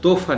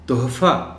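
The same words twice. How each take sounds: First: The h sound in the middle is dropped. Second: The h sound in the middle is clearly pronounced. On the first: The speaker calls it wrong. "ये लफ्ज़ तोहफ़ा नहीं हो सकता" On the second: The speaker calls it right. "मैंने हे को ज़ाहिर करके पढ़ा है"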